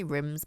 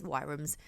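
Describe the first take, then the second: First: "rims" said as rims with no w sound; "rims", the rhyme of "dims"; the usual wrong way. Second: "Wyrms" said with a w at the start, like worms; "Wyrms" said as the proper word; the correct way. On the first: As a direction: say "rims" as the speaker always does, as in rims. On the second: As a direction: say "Wyrms" the right way, the opposite of rims. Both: Shown as a demonstration. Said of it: "I always say that wrong".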